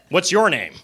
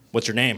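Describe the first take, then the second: First: The voice sounds creepy and overly eager. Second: The voice sounds cool and intimidating. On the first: The speaker calls it wrong. "you don't want to act creepy" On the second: The speaker calls it right. "You want to act more intimidating"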